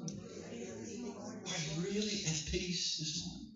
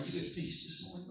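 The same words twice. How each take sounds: First: "really" drawn out in a slow, hushed question; stress on really. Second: Said in the usual way. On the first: Shown as a demonstration. Preacher probes whether congregation is at peace, "really" stressed and drawn out. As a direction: ask it very softly, leaning slowly on "really".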